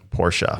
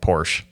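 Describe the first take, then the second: First: The word does not sound like 'porch'. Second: The word sounds just like 'porch'. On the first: The speaker calls it right. "the correct way to say it is Porsche" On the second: The speaker calls it wrong. "You sit you sit in a rocking chair on a porch"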